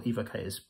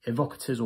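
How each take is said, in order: First: Quick "Evocators" with long ee and a clear "kay"; long-e pronunciation. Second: Quick "Evocators" with short first vowel, stressed "vock"; short-e pronunciation. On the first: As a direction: say "Evocators" as EE-voh-kay-ters. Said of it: "So is it capital E". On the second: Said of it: "or small e". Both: Shown as a demonstration.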